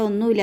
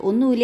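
First: Said in the usual way. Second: "ഒന്നുമില്ല" thrown back as a questioning echo. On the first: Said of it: "അപ്പോൾ അവൾ". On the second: Retold or imitated. Doctor echoes the girl's denial back as a question, challenging. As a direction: repeat "ഒന്നുമില്ല" back at her, doubting it. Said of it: "എന്ന് ചോദിച്ചിട്ട്".

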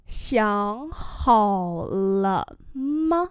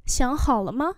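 First: Slow, each syllable stretched; syllable-by-syllable demo; slow model reading. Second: Said in the usual way. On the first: Shown as a demonstration. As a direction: draw out "Xiang hào lợ mơ" for learners. Same phrase drawn out for learners.

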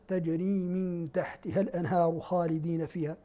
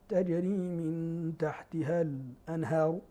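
First: الأنهار read with the hamza fully sounded, no pause; plain recitation with a full hamza in الأنهار. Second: الأنهار with a brief silent catch before the hamza, al. anhar; slow recitation, short stop before الأنهار; slight pause before hamza. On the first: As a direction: pronounce الأنهار cleanly with tahqiq. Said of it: "الباقون لهم التحقيق". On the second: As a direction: hold a tiny sakt in الأنهار. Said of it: "له السكت". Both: Shown as a demonstration.

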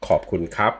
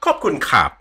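First: Khop kun krap low, krap rising at the end; proper Thai tones. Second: Khop kun krap with English tune, Khop high and falling; wrong English envelope. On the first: Teacher modelling correct Thai tones. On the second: Teacher showing the wrong Thai tune. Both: Shown as a demonstration. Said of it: "It's not".

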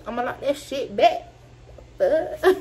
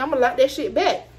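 First: Laughing through the line. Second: Said in the usual way. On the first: Retold or imitated. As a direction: retell it while cracking up. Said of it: "I ain't say the fuck like that". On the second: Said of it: "but I said I'ma lock that shit back".

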